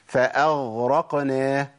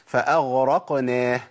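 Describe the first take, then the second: The two takes are said the same way.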